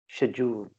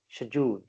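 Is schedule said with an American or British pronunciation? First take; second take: British; British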